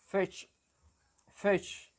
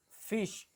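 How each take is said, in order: First: FISH with a shifted New Zealand i, higher; New Zealand accent. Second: FISH the Australian way, plain short i; Australian accent. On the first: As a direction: model New Zealand 'fish', one word alone. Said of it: "but in New Zealand, they say". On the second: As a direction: model Australian 'fish' for learners. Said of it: "In Australia, they will say". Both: Shown as a demonstration.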